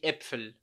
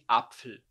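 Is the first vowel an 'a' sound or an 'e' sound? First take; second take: e sound; a sound. First: The first vowel sounds like an open e. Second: The first vowel sounds like a plain a. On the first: The speaker calls it right. "A gente fala de Äpfel" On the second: The speaker calls it wrong. "não de Apfel"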